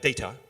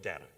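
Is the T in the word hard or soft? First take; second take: hard; soft. First: The T is pronounced as a hard, crisp T. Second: The T is pronounced softly, not as a crisp T. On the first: The speaker calls it wrong. "the T is not hard. It's not data" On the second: The speaker calls it right. "it's data or data"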